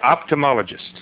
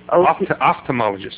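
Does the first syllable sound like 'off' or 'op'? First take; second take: op; off. First: The first syllable is said as 'op'. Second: The first syllable is said as 'off'. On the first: The speaker calls it wrong. "I say ophthalmologist" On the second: The speaker calls it right. "It's off"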